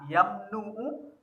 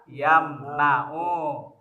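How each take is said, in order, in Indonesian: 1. Vokal setelah n adalah u. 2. Vokal setelah n adalah a.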